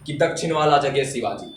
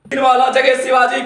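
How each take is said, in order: First: Said in the usual way. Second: High, louder heroic verse; fiery declamation. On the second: Acted. Reciter invoking Shivaji, fiery declamation. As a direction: proclaim it like a battle cry. Verse repeated at full force.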